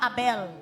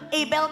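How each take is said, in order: First: The name is pronounced with a Filipino reading. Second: The name is pronounced with an English reading. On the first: This is how locals would read the name. "sa Pinoy pa Abel" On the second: This is how the name is actually read. "Pero Abel kasi ang pagkabasa niya"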